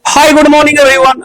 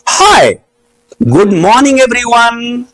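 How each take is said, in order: First: The whole greeting runs together without a pause. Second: There is a pause after 'hi'. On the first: The speaker calls it wrong. "अरे बुड़बक" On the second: The speaker calls it right. "हाय के साथ good morning everyone का कोई connection नहीं है"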